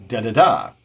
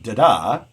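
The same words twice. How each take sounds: First: Da-da-DA, last beat loud; two light beats then a strong one; anapest. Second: Da-DA, weak then strong; iamb. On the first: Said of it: "we have da-da-da". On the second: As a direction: tap one iamb. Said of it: "the iambic one". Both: Shown as a demonstration.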